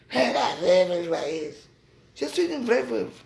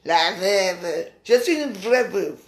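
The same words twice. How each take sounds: First: Hammed-up sneer at her rival's voice; mocking rombière voice. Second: Slow, mild mock of a stuck-up old biddy; voix de rombière moqueuse, à peine appuyée. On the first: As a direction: parody of a stuck-up old lady, drawn out. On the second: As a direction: drawl it out like a snooty dowager, lightly. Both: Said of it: "avec sa voix de rombière".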